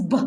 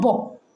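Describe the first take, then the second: First: "b" said short and clean, no vowel after it; pure b sound. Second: "bo" with an extra "o" tacked on after the b; wrong b sound. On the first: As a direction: clip the "b" with no added "o". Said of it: "teach your children the sounds as pure". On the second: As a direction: add an "o" to make it "bo". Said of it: "it's not". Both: Shown as a demonstration.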